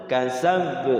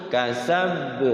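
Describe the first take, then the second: Both takes have the same delivery.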